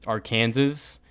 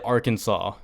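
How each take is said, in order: First: Arkansas said as ar-KAN-zus; weird pronunciation. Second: Arkansas said as AR-kin-saw; standard pronunciation. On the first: Vlogger showing how they misread Arkansas, as ar-KAN-zus. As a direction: rhyme the end of Arkansas with Kansas. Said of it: "I say some things really weird". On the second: Vlogger questioning the official name, Arkansas as AR-kin-saw. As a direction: end Arkansas on "saw", silent final s. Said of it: "but pronounced Arkansas". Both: Shown as a demonstration.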